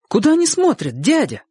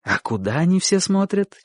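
First: Put-on high-pitched child's voice; boy's question. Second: Said in the usual way. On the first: A narrator's reading. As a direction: ask your uncle as a curious boy. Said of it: "спросил Чик". (высокий детский голос) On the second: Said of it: "Чик никак не мог понять".

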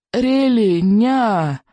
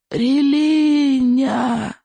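First: High, slow desperate cry. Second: Very high, slow anguished shout; desperate shout. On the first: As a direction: cry out in anguish. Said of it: "снова вскрикнул несчастный Икинг". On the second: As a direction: shout it out in despair. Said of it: "в отчаянии выкрикнул Икинг". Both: A narrator's reading.

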